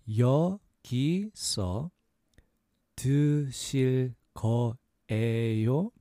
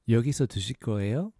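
First: It is said at a slower pace. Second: It is said at a faster pace.

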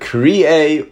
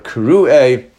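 First: The vowel after 'kr' is an 'ee' sound. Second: The vowel after 'kr' is an 'oo' sound. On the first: Someone permanently called for a task. "if it were pronounced with a yud" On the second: Someone called for one specific occasion. "which is the way we pronounce it"

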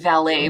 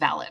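First: The word is said the original French way. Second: The word is said the British way. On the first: The speaker calls it right. "the word is actually valet" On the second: The speaker calls it wrong. "because they're British, they pronounce it valet"

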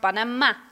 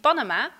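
First: The stress falls on the last syllable. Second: The stress falls before the last syllable. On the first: The speaker calls it right. "met de klemtoon op de laatste A" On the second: The speaker calls it wrong. "In het Spaans zeggen ze niet Panama"

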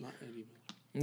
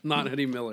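First: It is said quietly. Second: It is said loudly.

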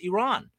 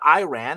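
First: The name is said without a Southern American pronunciation. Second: The name is said with a Southern American pronunciation. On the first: The speaker calls it right. "it's Iran" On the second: The speaker calls it wrong. "a lot of people mispronounce, particularly in the South. It's not Iran"

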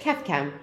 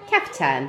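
First: The second syllable begins with a k sound. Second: The second syllable begins with a t sound. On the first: The speaker calls it wrong. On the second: The speaker calls it right. "That's the first time I've ever heard you say it right"

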